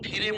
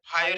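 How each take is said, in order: First: The ending sounds like 'ee-reh'. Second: The ending sounds like 'eye-er'. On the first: The speaker calls it wrong. "याला फिरे म्हणू नका" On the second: The speaker calls it right. "फायर शब्द लिहू शकतो"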